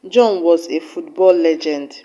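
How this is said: The word football carries the main stress. He was a legend in football, not another sport. "with emphasis on the word football"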